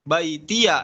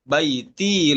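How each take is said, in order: First: The word ends with an added 'ya' sound. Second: The word ends with a plain 'i' sound. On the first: The final ya is read with a fathah. "Imam Hafiz membaca apa?" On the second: The final ya is not voweled. "Imam Syu'bah membaca baiti"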